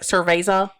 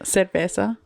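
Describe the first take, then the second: First: It is said with an anglicized English accent. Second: It is said with a Spanish-sounding accent. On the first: The speaker calls it wrong. "Somebody else would be like" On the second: The speaker calls it right. "I'm proud of my Spanish accent"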